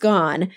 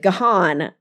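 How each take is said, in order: First: The name sounds just like the word 'gone'. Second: The name does not sound like 'gone'. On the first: The speaker calls it right. "but it's gone. Like, go away" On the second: The speaker calls it wrong. "a lot of people still say the Gahan"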